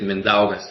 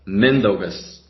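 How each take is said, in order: First: The stress falls on a later syllable. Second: The stress falls on the first syllable. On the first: The speaker calls it wrong. "I don't like how people say it" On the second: The speaker calls it right. "it should be pronounced Mindaugas ... More so pressure on the letter N"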